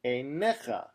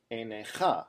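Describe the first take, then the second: First: "einecha" stressed on its second-to-last syllable, ei-NE-cha; stress on the middle syllable. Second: "einecha" wrongly stressed at the end, ei-ne-CHA; stress on the last syllable. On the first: Teacher showing the right pronunciation, "einecha" stressed on "ne". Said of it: "This word is pronounced einecha". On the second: Teacher showing the mistake to avoid, "einecha" stressed on "cha". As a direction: say "einecha" with the weight on final "cha". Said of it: "not einecha". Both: Shown as a demonstration.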